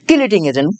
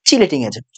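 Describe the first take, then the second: First: The first word begins with a k sound. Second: The first word begins with a ch sound. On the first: It follows the spelling used in the Bengali book. "বাংলায় লেখা আছে কিলেটিং তাই কিলেটিং বলতেছি" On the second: It is the usual main pronunciation. "চটা main উচ্চারণ"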